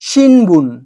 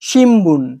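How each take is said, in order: First: An n sound comes before the b. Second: An m sound comes before the b. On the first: "আমি এখানে যে শব্দটা লিখেছি সেটা হচ্ছে শিনবুন" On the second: "তাই এটা উচ্চারণ হয়ে যাবে শিমবুন"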